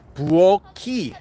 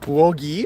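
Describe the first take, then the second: First: The last syllable begins with a k sound. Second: The last syllable begins with a g sound. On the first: The speaker calls it right. "it's supposed to be ki" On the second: The speaker calls it wrong. "You might hear people say buogi"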